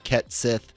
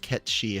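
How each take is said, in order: First: The name ends with a hard 'th' sound. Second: The name ends with a soft 'shee' sound. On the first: The speaker calls it wrong. "I think that's how they said they're going to pronounce it" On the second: The speaker calls it right. "It should be, like I said, I think it's Ketshi"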